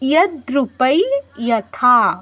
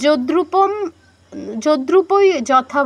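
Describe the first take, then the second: First: The first word ends with a y-like glide. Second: The first word ends with an m sound. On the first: The speaker calls it right. "কি বলছি ইয়াদ্রুপাই ইয়াথা" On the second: The speaker calls it wrong. "আমি কিন্তু যদ্রুপম যদ্রুপই যথা বলছি না"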